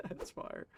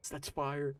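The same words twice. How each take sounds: First: Laughing it out breathily. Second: Said in the usual way. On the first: Real, not acted. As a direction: say it through a laugh. Repeats phrase through laughter.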